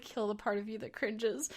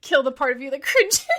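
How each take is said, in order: First: Muttered much softer to herself; a soft inner mantra; quiet self-pep talk. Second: Amused self-command with a laugh; laughing mantra. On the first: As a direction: talk yourself through the cringe under your breath. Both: Real, not acted. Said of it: "I'm like".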